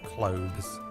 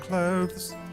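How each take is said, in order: First: It is said in his natural home accent. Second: It is said in his put-on stream accent.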